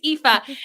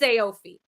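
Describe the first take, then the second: First: It sounds like FIFA without the first F. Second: It does not sound like FIFA without F. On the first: The speaker calls it right. "it's like saying FIFA, but you take away the first F" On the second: The speaker calls it wrong. "if I look at it when I say it, it's Aofi"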